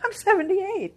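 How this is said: The age is said in a proud, upbeat tone. The age is stated with pride, as full of possibility. The speaker calls it right. "I say it like"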